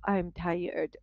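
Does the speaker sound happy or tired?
tired. The voice sounds weary and low. The speaker really is tired. The speaker calls it right. "this is more natural"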